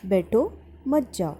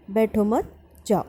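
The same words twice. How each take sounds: First: "बैठो", pause, then "मत जाओ" together; pause after बैठो. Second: "बैठो मत" together, pause, then "जाओ"; pause after मत. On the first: Teacher reads first example sentence, pausing after "बैठो". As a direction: break after "बैठो", keep "मत जाओ" as one phrase. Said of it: "बैठो के बाद अल्प विराम आया". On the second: Teacher reads second example sentence, pausing after "मत". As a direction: break after "मत", leaving "जाओ" on its own. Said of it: "के बाद अल्प विराम आया है". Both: Shown as a demonstration.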